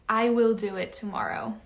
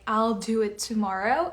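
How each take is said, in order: First: Both words are said fully as I will. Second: The words are joined into the short form I'll. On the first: "they will read I will do it tomorrow" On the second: "the I apostrophe double L"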